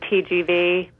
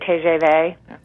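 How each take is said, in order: First: It is said with an American pronunciation. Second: It is said with a French pronunciation.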